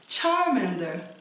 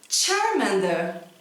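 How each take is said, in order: The two takes are said the same way.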